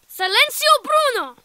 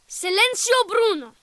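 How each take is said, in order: First: It is shouted loudly. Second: It is said at a normal, quieter volume.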